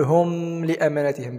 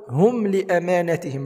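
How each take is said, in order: First: هم with the meem wrongly held in a hum. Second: هم said with a short, clear meem, no hum; clear unheld meem. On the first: Teacher shows learners the mistake, هم with humming meem. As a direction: drag out the m of هم before لأمانتهم. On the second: Teacher models the correct recitation, هم with clear meem. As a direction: say هم crisply, moving straight on to لأمانتهم. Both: Shown as a demonstration. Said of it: "لا نقول".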